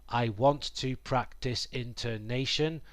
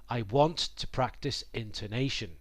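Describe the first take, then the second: The two takes are said the same way.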